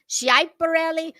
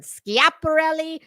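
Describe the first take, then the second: First: Schiaparelli said shy-pa-RELL-i, raised a little; alternate pronunciation. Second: Schiaparelli said skee-ap-a-RELL-i with a hard sk; Italian-style pronunciation. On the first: Listing another way people say the name, alternate pronunciation. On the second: Quoting how others say the designer's name, Italian-style pronunciation. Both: Shown as a demonstration. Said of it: "I have heard".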